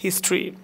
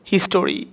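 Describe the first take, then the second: First: হিস্ট্রি in two syllables; correct pronunciation. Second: হিস্টোরি in three syllables; uninformed pronunciation. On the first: Teacher giving the correct form, হিস্ট্রি as "his-tri". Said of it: "আমরা কি বলি?". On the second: Teacher showing how many misread it, হিস্টোরি with full "to". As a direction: say হিস্টোরি as "his-to-ri". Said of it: "যারা জানে না তারা বলে". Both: Shown as a demonstration.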